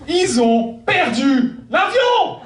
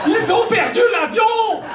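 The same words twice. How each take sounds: First: Exclaiming. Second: Much higher, incredulous cry; shocked high exclamation. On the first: Punchline repeated twice. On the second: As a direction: squeal it in disbelief. Punchline repeated, higher. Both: Acted.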